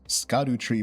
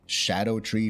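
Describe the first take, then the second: First: The word begins with an sk sound. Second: The word begins with an sh sound. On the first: "I'm just gonna still call it" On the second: "S C be pronounced like an S H"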